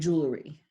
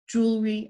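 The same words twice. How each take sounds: First: An extra vowel is added in the middle. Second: It is said with no extra vowel.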